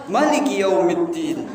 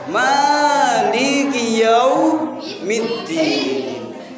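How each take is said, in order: First: The first vowel of Maliki is short. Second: The first vowel of Maliki is long. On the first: "Bisa juga dibaca Maliki Yaumiddin" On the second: "ada Maliki Yaumiddin"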